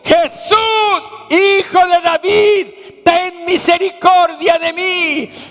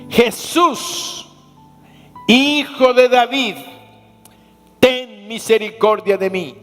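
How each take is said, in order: First: It is cried out in a loud voice. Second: It is said in a quiet, normal voice.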